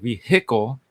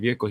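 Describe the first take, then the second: First: The H sound in the word is clearly pronounced. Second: The H sound in the word is silent.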